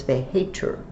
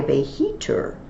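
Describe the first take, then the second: First: "veheter" said vay-HAY-ter; long "ay" vowel. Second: "veheter" said vay-HEE-ter; long "ee" vowel. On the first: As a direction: say "veheter" with ay in the middle. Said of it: "but it's an E". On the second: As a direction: say "veheter" with ee in the middle. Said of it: "If it were an I". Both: Shown as a demonstration.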